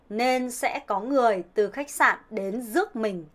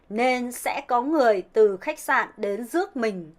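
First: It is said in a northern Vietnamese accent. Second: The same.

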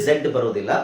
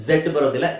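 No difference in how they are said.

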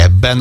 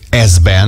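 First: The z becomes a long b sound. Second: The z sound is kept before the b. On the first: The speaker calls it right. "hanem azt mondod, hogy ebben" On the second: The speaker calls it wrong. "nem azt mondod, hogy ezben"

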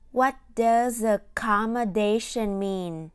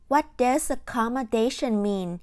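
First: The sentence is spoken at a slower pace. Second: The sentence is spoken at a faster pace.

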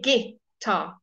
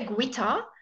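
First: No 'w' sound follows the g. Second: A 'w' sound follows the g. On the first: The speaker calls it right. "We say guitar" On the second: The speaker calls it wrong. "We don't say guitar"

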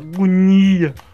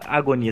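First: The word is said in a strained, anguished way. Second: The word is said in a plain, normal way. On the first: "A agonia é tão poderosa que ... você fala agonia" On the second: "você não fala agonia"

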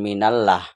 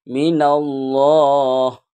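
First: The l sound is light and thin. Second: The l sound is heavy and thick. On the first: The speaker calls it wrong. "bukan minallah" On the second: The speaker calls it right. "Tafkhim atau mufakhom tebal"

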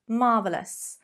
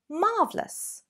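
First: The word is said with three syllables. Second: The word is said with two syllables. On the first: It is an ordinary, acceptable way to say it. "How many syllables do you hear there? 3, fine, totally acceptable" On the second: It sounds a little more sophisticated. "Use this adjective with 2 syllables and you're going to sound definitely a little more sophisticated"

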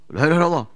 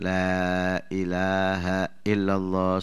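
First: The phrase is said quickly. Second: The phrase is said slowly. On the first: The dying person gets confused. The speaker calls it wrong. "jangan cepet" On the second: It is like teaching a child. The speaker calls it right.

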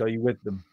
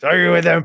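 First: It is said in a natural everyday voice. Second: It is said in a put-on character voice. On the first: The speaker calls it wrong. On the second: The speaker calls it right.

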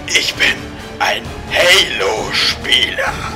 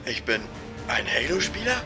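First: It is said very loudly. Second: It is said quietly and hesitantly.

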